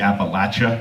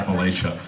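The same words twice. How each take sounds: First: It is pronounced the way Kentucky speakers say it. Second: It is pronounced the way western Marylanders say it. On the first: The speaker calls it wrong. "He's going to say it wrong" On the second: The speaker calls it right. "It's actually pronounced uh"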